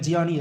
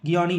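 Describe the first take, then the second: First: The name begins with a J sound. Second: The name begins with a hard G sound. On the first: The speaker calls it right. "ஜியானி எப்படின்னா pronounce பண்ணலாம்" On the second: The speaker calls it wrong. "கியானி இல்லை"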